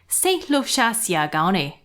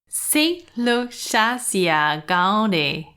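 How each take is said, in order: First: It is said fast. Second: It is said at a normal pace.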